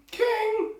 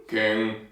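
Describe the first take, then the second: First: Very high, squeaky little soldier; one of many soldiers. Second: Low-voiced soldier; one of many soldiers. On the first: Acted. Soldiers appealing to their king, very high squeaky voice. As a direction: squeal it like the tiniest of the crowd. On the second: Soldiers appealing to their king, low voice. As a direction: drop low for another man in the crowd. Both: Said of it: "There's a lot of them".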